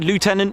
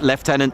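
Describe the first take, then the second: First: It is said with the American pronunciation. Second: It is said with the British pronunciation. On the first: It refers to a United States Air Force rank. "I will always say Lieutenant if I'm referring to uh, United States Air Force" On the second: It refers to a Royal Air Force rank. "in the R A F it's Lieutenant"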